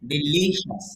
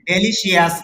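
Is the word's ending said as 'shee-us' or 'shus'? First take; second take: shus; shee-us. First: The ending is said as 'shus'. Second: The ending is said as 'shee-us'. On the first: The speaker calls it right. "লর মাঝে stress আছে মানে ধাক্কা দিতে হবে" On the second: The speaker calls it wrong. "তাহলে ডেলিশিয়াস না"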